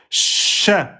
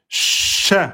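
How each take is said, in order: The two takes are said the same way.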